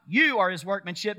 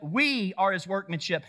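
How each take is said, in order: First: "you" punched as the rejected word; stress on YOU. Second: "we" punched, the rest falling; stress on WE. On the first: Preacher ruling out the individual reading, stress on "you". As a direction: hit "you", leaving the end lifted. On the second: Preacher insisting the verse is collective, stress on "we". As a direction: hit "we" as the true word. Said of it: "No, we collectively". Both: Shown as a demonstration.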